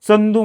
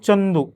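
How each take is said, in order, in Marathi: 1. पहिला व्यंजन दंत 'ts' आवाज आहे. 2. पहिला व्यंजन तालव्य 'ch' आवाज आहे. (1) "खानदेशचे जे लोक आहेत ते दंत तालव्यानं उच्चार करतात" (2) "प्रॉपर उच्चार माझा काय? ... माझ्या च मध्ये य लागतो"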